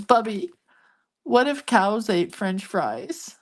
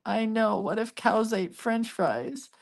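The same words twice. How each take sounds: First: Slow imitation of a child wondering aloud; lightly voiced kid, drawn out, rising at the end; amused little grandson. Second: Soft, higher, drawn-out echo; hushed mock wonder for a grandchild; playing along. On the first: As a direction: imitate a small boy posing a silly question. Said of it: "laughing through the whole thing". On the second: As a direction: humor a small child, slow and pitched up. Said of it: "And I go".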